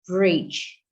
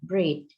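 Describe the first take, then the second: First: The word ends in a j sound. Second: The word ends in a t sound.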